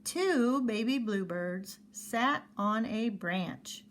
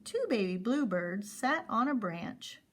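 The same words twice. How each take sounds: First: Slow word by word reading. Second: Said in the usual way. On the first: Shown as a demonstration. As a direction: read each word slowly. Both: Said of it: "we don't wanna read it that slow".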